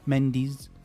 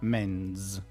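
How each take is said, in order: First: The ending is an extra syllable. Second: The ending joins the word as one syllable. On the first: The speaker calls it wrong. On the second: The speaker calls it right.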